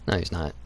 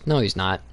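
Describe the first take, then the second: First: Much softer, lower no, muttered to himself; softer, dismissive aside; quiet repeat. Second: Said in the usual way. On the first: Real, not acted. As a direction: drop it down and say it under your breath. Repeating his own rebuttal.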